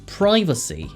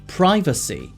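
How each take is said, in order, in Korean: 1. 미국식 발음으로 말합니다. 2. 미국식 발음으로 말합니다.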